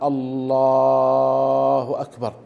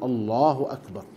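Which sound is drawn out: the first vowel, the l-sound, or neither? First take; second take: l-sound; neither. First: The l-sound in the first word is drawn out. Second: No sound in the first word is drawn out. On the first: The speaker calls it wrong. "إن مد اللام في لفظ الجلالة بأن قال الله أكبر" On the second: The speaker calls it right. "السنة ألا يمد وإنما يقول الله أكبر"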